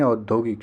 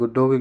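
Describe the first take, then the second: First: औद्योगिक said as "audyogik"; correct au start. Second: औद्योगिक said as "udyogik"; wrong u start. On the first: Teacher corrects the spelling, au opening in औद्योगिक. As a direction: open with au in औद्योगिक. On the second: Teacher rejects the spelling, "udyogik" with short u. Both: Shown as a demonstration. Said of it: "औद्योगिक नहीं".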